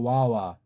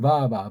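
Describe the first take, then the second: First: The syllables begin with a w sound. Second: The syllables begin with a b-like sound. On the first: "영미식으로 와와가 되니까" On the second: "독일식은 바바"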